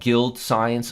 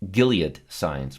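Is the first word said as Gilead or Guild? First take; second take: Guild; Gilead. First: The name is said like the word guild. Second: The name is said in full as Gilead. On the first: It is named after its ticker symbol. The speaker calls it wrong. "I call it Guild because the ticker symbol's Guild. I'm mispronouncing this word" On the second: It is the company's actual name. The speaker calls it right. "It's Gilead Science"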